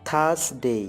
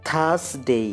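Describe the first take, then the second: No difference in how they are said.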